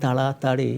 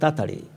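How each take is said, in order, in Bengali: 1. শব্দটি ধীরে ধীরে, প্রতিটি অক্ষর বলে বলা হয়। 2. শব্দটি দ্রুত বলা হয়, একটি অক্ষর বাদ দিয়ে। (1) "এরকম বলার সময়ও থাকে না" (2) "যখন আমরা তাড়াতাড়ি বলি তখন বলে"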